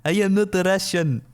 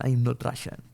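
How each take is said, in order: First: Loud, raised mock-Russian protest; hammed-up Russian denial; fake Russian accent. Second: Said in the usual way. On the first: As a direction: put on a bad Russian accent. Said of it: "fake a Russian accent". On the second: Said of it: "I don't even know how to".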